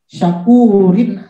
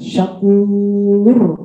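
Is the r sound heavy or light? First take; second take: light; heavy. First: The r is light, followed by an ending. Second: The r is heavy, ending the word. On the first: The word is joined to the next words. "kalau dilanjutkan dia jadi tipis" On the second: The reading stops on this word. "kalau dia berhenti wakof, maka dia jadi tebal"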